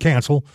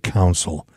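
First: The first vowel sounds like the one in 'can'. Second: The first vowel sounds like the one in 'cow'. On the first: The speaker calls it wrong. "Saying it like my grandmother" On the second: The speaker calls it right. "She can never say council"

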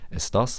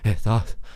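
First: The s sound is clearly pronounced. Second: The s is replaced by a breathy sound. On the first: "i stedet for å si" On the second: "de dropper s-ene, og at de har litt sånn pustelydene i stedet for"

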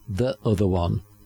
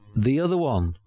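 First: The word 'the' uses its before-consonant pronunciation. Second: The word 'the' uses its before-vowel pronunciation. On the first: The speaker calls it wrong. "Not the other one" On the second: The speaker calls it right. "But in front of a vowel"

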